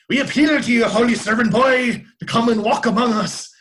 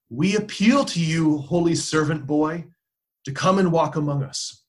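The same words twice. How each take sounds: First: It is said in an imitated Irish accent. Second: It is said in the speaker's plain accent.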